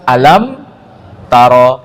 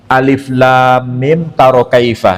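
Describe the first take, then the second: First: The opening letters are blended into one word. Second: The opening letters are spoken by their separate names. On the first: The speaker calls it right. "Tapi dibaca alam taro" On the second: The speaker calls it wrong. "nggak mungkin dibaca alif lam mim taro kaifa"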